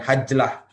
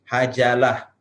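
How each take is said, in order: First: No vowel is heard after the j. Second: An a vowel is heard after the j. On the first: The speaker calls it wrong. "bukan hajlah" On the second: The speaker calls it right. "tapi hajalah"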